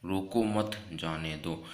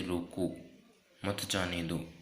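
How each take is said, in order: First: Slow रोको मत, then a break before जाने दो; pause after मत. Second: रोको, then a clear pause before मत जाने दो; pause after रोको. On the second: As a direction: break after रोको, run मत जाने दो together. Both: Shown as a demonstration. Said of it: "एक अल्प विराम के जरिए".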